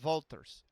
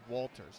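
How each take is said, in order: First: The name is pronounced in a Dutch way. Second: The name is pronounced in an American way. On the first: The speaker calls it right. "with Dutch, the W O L is actually Walters" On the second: The speaker calls it wrong. "in an American, I would look at that and say Walters"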